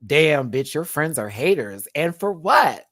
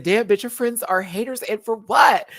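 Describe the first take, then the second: First: Mild take on Plane's voice, louder on the ends; lightly voicing her sassy message; a hint of Plane's voice; reading in her voice. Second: Higher, sassier read of Plane's message; Plane's voice, raised and sassy; reading in her voice. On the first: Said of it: "I was reading it in her voice". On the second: Retold or imitated. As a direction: put on Plane's voice, punch "what". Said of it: "I had to read it in her voice".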